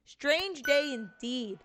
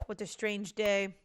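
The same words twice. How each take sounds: First: High, very slow put-on voice; slow, theatrical musing in a raised voice; drawn-out character echo. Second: Said in the usual way. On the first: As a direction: stretch it out in an exaggerated character voice. Second character echoes the phrase, drawn out.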